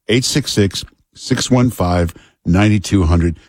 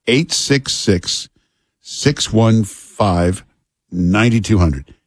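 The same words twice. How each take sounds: First: Said in the usual way. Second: Each digit drawn out slowly; slow number read. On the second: Acted. Host gives the listeners the phone number, very slowly. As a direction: spell out the number slowly so listeners can write.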